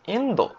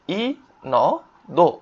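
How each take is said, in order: First: Said in the usual way. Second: ইনদো very slowly as ই, ন, দো; syllable by syllable. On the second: Shown as a demonstration. Teacher spelling out a country name, syllable by syllable. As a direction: separate each kana of ইনদো with gaps. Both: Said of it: "ইন্দো অর্থ কি?".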